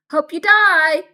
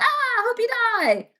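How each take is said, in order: First: A loud yelled send-off; hallway classmates yelling back; shouted hope you die. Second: High, slow, hammed-up yell; drawn-out greeting shout. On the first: Retold or imitated. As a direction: bellow it back down the hall as a cheery insult. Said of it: "people would walk back and be like". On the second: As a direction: stretch the Ah into a big mock-friendly hail. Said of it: "they'd see me in the hallway and be like".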